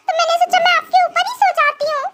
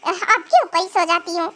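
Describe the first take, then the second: First: Said in the usual way. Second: Lower, sarcastic echo of her words; mocking repeat. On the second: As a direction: parrot her words back with scorn. Husband mockingly repeats wife's words. (ताना मारते हुए उसकी बात दोहराना)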